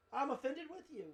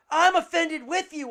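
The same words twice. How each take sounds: First: Much softer, matter-of-fact quote. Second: Loud mock indignation; indignant retort. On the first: Retold or imitated. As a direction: toss it off quietly as a list item. Same answer repeated quietly as recap. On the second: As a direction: blurt it out as an offended reply. Acting out one of two answers.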